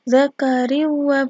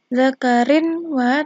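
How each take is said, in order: First: The n vanishes, flowing straight into the w. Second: A clear n is heard before the w. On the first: The speaker calls it right. "Membacanya zakariwa" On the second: The speaker calls it wrong. "bukan zakarin wa"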